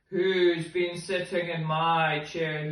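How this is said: The voice sounds big and deep. The largest character is speaking. "he said in his great big voice"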